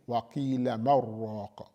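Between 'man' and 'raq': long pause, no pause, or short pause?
no pause. The n merges into r with no break. The speaker calls it wrong. "So you don't say"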